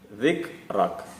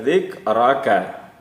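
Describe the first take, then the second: First: The word ends on a bare consonant sound. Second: The word ends with a short vowel sound. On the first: The speaker calls it right. "tetapi dzikrak" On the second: The speaker calls it wrong. "tidak dibaca dzikraka"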